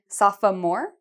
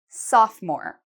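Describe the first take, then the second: First: The word is said with three syllables. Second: The word is said with two syllables. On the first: The speaker calls it wrong. "Many students say sophomore, but it's not" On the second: The speaker calls it right. "It has two syllables"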